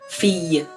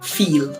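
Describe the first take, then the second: First: The word ends with a Y-like sound. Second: The word ends with a clear L sound. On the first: "the two L's are going to act kind of like a Y" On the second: "like pronouncing those L's how we would think"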